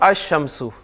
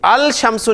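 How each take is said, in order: First: The 'l' blends into a doubled 'sh'. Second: The 'l' is pronounced before 'shamsu'. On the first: The speaker calls it right. "लाम प्रोनाउंस नहीं कर रहे" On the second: The speaker calls it wrong. "अल शमसु नहीं पढ़ रहे आप"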